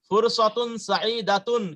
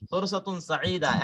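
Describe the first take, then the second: First: The last word ends with a full -tun ending. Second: The last word ends in a plain -a sound. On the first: The phrase continues without a stop. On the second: The speaker stops after the phrase. "কিন্তু যখন থামবেন তখন তো আরবরা এরকম সাঈদাতুন বলবে না, ফুরসাতুন সাঈদা বলবে।"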